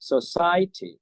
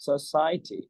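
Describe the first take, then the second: First: The pitch rises then drops across the word. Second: The same.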